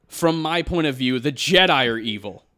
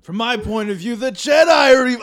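First: A touch louder, earnest line reading; serious acting take. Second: High, loud hammed-up movie line; overacted serious line. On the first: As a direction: deliver it dead serious. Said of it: "I'm gonna go into acting mode". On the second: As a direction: belt it out like a bad drama. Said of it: "I'm gonna try and act and say that line as serious as I can". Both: Shown as a demonstration.

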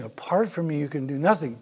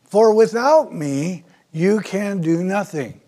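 First: "Apart from me" eased down and softer; quiet. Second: "For without me" lifted and slowed, then "you can do nothing" falling firm; emphatic quote. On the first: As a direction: drop back and let it land gently. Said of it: "that's what Jesus was saying". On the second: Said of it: "here's the emphasis". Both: Shown as a demonstration.

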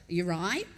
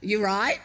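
First: Low-starting question with a sharp rise; shop clerk's query. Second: Louder, insistent rising question; clerk asking again. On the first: Deli clerk first acknowledging a newcomer, quick rising query. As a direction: casually check on a customer, imitating a clerk. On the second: Deli clerk to a baffled customer still standing there, louder query. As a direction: imitate a clerk repeating herself, louder. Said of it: "looked at me again and said". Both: Retold or imitated.

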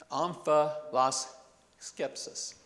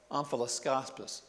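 First: "Omphaloskepsis" said slowly, syllable by syllable, with an e in the third syllable; careful correction. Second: "omphaloskopsis" said with an o in the third syllable, a slip; stumbling over "omphaloskopsis" before fixing it; fumbled first try. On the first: Preacher corrects himself for the scientists listening, slow and careful. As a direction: spell out "Omphaloskepsis" slowly to set the slip right. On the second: Preacher trips on the scholarly term for the congregation, fumbled. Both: Shown as a demonstration.

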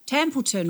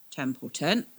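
First: Templeton blurted higher and louder; startled recognition. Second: Templeton drawn out slow and musing; slowly. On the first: Captain realises the twins know the name, louder. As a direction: snap Templeton out as it clicks. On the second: Captain slowly weighs the name Nan just said. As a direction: let Templeton hang, slowly, thinking. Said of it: "Mace said slowly". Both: Acted.

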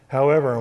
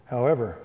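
First: However, punched louder with a falling end; ominous stress. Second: Said in the usual way. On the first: Retold or imitated. Coach warning his fifth-year quarterback, with a heavy stressed However,. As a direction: hit However, hard, like a warning. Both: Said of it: "that's always a scary word for the coach".

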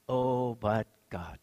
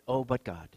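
First: Drawn-out, hushed OH, BUT GOD; slow and low, with a long "Oh"; slow, weighty repeat. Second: Said in the usual way. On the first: Real, not acted. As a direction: stretch each word and let it sink in softly. Repeats phrase slowly for weight.

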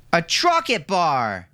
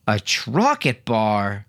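First: High, slow eager yell of A Trocket bar with Trocket stretched; a little boy shouting for his treat; excited child shout. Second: Slow, drawn-out A Trocket bar with Trocket stretched in fake shock; a dad playing shocked at his kids; mock surprise. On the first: Milo on the bed demanding a Trocket bar, high excited shout. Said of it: "shouted Milo". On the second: Roland teasing his son, mock surprised. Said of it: "Roland exclaimed in mock surprise". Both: A narrator's reading.

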